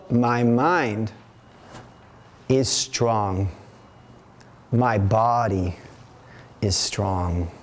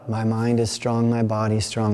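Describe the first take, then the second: First: It is said firmly in a strong marching rhythm. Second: It is mumbled quietly with little energy. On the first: The speaker calls it right. "this is what I do, marching" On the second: The speaker calls it wrong. "not a mumble"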